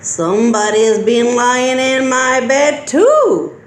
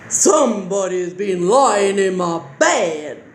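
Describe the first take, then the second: First: It is said in a medium-pitched voice. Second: It is said in a deep growling voice.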